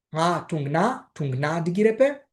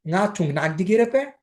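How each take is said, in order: First: Να τουμ να ντιγκυρεπέ said slowly, word by word; slow, careful second take for learners; slowed repeat. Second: Said in the usual way. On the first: Shown as a demonstration.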